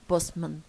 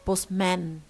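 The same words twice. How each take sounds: First: The second syllable has a reduced schwa vowel. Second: The second syllable has a full vowel. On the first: The speaker calls it right. "So a turns into شوا" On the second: The speaker calls it wrong. "we don't have say postman"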